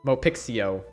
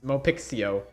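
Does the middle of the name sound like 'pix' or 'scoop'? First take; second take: pix; pix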